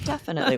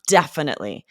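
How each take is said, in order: First: It is said with a hesitant, unsure tone. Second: It is said firmly, hitting the first syllable. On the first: The speaker is not really sure. The speaker calls it wrong. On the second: The speaker really means yes. The speaker calls it right.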